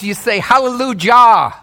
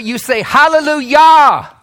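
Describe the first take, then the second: First: The j is said like an English j. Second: The j is said like an English y. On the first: The speaker calls it wrong. "If you went by the letters, you say hallelujah. You would be wrong" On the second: The speaker calls it right.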